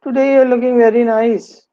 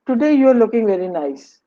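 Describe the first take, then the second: First: Sarcastic. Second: "Today you are looking very nice" said as a genuine compliment; mean it kindly; sincere compliment. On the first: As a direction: turn the compliment into a complaint. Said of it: "It's not a compliment. It's sort of, "I'm complaining". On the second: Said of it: "is a kind of a compliment". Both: Shown as a demonstration.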